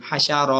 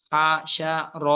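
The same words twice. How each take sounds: First: "হাসা র" joined into one smooth word; in one pull. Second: "হাসা র" broken into three separate syllables. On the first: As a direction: read "হাসা র" without breaks between syllables. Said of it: "এরপরে একটানে পড়বেন". ("হাসা র" একটানে পড়া) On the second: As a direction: pause after each syllable of "হাসা র". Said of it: "একটা একটা করে পড়বেন আগে". ("হাসা র" একটা একটা করে ভেঙে পড়া) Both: Shown as a demonstration.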